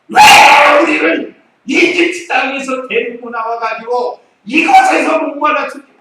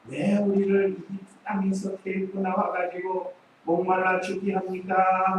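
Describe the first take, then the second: First: It is said in an angry, complaining tone. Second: It is said in a calm, polite tone.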